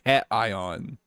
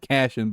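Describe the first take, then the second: First: The middle consonant is said as t. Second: The middle consonant is said as sh. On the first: The speaker calls it right. "but cation" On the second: The speaker calls it wrong. "it's not Cashion"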